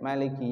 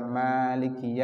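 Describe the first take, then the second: First: The first vowel is kept short. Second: The first vowel is drawn out long.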